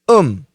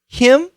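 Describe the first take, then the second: First: The h sound at the start is dropped. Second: The h sound at the start is pronounced.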